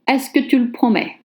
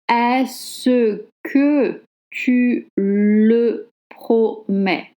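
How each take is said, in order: First: Fast, with the vowel of le dropped. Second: Slower, with the vowel of le pronounced. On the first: "Now I was reading it real speed" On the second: "the spelling is"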